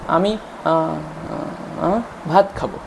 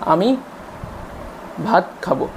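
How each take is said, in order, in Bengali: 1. বাক্যের মাঝখানে একটি অতিরিক্ত শব্দ ঢুকছে। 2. বাক্যের মাঝখানে একটি বিরতি আসছে। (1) "মাঝখানে বাচ্চা কিছু একটা জুড়ে দিচ্ছে" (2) "মাঝখানে একটা কথার মাঝখানে পজ থাকছে"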